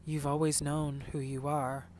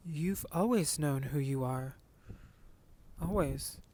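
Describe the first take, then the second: First: Unsure, held-back comfort, lightly voiced; hesitant. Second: Mom's slow, hesitant reassurance, lightly voiced; a hint of a mom holding back, unsure. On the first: Mom to son, a hint of hesitant reassurance. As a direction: say it like you don't quite mean it. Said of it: "almost like a hesitant". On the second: Mom to son, lightly voiced hesitant comfort. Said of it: "she's like".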